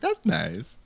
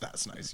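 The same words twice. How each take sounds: First: It has his distinctive, exaggerated inflection. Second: It is said plainly, with no special inflection.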